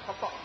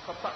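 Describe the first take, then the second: No difference in how they are said.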